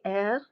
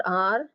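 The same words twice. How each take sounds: First: R said as a soft "air"; French letter name R, softly sounded as air. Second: R said as English "ar"; the English letter name R, ar; not the French R. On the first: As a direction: say R like air, unrolled. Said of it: "it is soft". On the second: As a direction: say R with an open ah, like ar. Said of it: "it is not R". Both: Shown as a demonstration.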